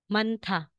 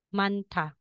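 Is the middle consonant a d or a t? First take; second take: t; t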